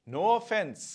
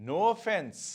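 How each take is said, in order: The two takes are said the same way.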